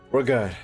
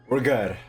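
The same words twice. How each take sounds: The two takes are said the same way.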